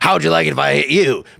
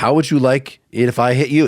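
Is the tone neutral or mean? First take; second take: mean; neutral. First: It is said in a mean, threatening tone. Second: It is said in a plain, neutral tone.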